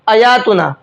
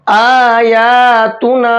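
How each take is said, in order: First: The long vowels are cut short. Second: The long vowels are clearly stretched out. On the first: The speaker calls it wrong. "इसको भी नहीं खींचते हैं और इसको भी नहीं खींचते हैं" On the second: The speaker calls it right. "तो तीन हर्फ यहां पर खींचेंगे"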